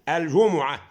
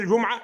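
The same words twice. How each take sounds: First: The mim carries a vowel before the ain. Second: The mim is silent, with no vowel after it. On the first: The speaker calls it right. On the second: The speaker calls it wrong.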